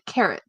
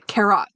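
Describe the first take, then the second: First: It is said with a standard English accent. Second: It is said with a Thai accent. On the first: This is the form Thai speakers cannot produce. "they can't say carrot" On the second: This is how Thai speakers say it. "They'll say carrot"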